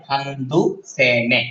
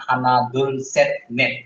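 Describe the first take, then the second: First: হান্দু সে নে run together as handu se ne, final sounds dropped; spoken form. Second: হানাদুল সেট নেট said slowly syllable by syllable as written, hanadul set net; spelled-out written form. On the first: Teacher showing students the spoken Korean form, run together. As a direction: say হান্দু সে নে the way it is spoken, endings swallowed. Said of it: "বলার ক্ষেত্রে". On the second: Teacher showing students the written Korean form, slow and careful. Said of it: "লিখার ক্ষেত্রে হা". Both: Shown as a demonstration.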